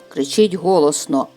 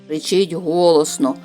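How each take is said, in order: No difference in how they are said.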